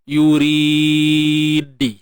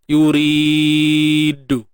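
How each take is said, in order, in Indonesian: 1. Huruf d terakhir diikuti vokal i. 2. Huruf d terakhir diikuti vokal u. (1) "ataupun baris bawah" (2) "ataupun baris depan"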